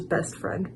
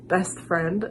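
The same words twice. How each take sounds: First: Hushed, breathy "best friend"; imitating her giddy line. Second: Said in the usual way. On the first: Copying the singer for viewers, a breathy hush. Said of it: "the thing her voice does when she says". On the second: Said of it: "the thing her voice does".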